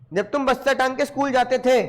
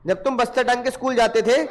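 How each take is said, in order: Both takes have the same delivery.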